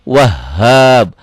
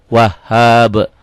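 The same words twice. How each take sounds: No difference in how they are said.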